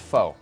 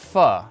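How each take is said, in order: First: The word sounds like 'foe'. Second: The word sounds like 'fuh'. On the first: The speaker calls it wrong. "not faux" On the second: The speaker calls it right. "It's pronounced pho"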